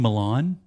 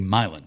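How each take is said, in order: First: The first vowel is not a long I. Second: The first vowel is a long I. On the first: This is the European city's name. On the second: This is how locals name the Tennessee town.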